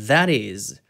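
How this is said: The middle t is a soft flap. "미국식 같은 경우에는 that is, that is 이런 식으로 넘기는데요"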